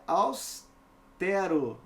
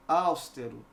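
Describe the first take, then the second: First: Austero said slowly with stressed TE; stress on middle syllable. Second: Austero with stress on AUS; wrongly stressed first syllable. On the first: Teacher showing correct stress, slow austero stressed on TE. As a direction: say austero as aus, pause, TÉ-ro. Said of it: "é austero". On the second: Teacher showing the mistake, austero stressed at the start. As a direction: say austero as ÁUS-te-ro. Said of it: "não é". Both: Shown as a demonstration.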